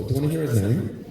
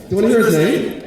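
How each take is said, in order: First: Said in the usual way. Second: Higher and louder, teasing; excited tease. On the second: Shown as a demonstration. Comic teasing the audience with his husband's name, louder and higher. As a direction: lift it up to hook the crowd.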